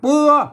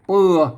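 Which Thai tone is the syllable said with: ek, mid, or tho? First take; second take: mid; ek. First: The syllable is said with the mid tone. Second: The syllable is said with the ek tone. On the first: "เสียงสามัญ" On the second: "ใส่ไม่เอก"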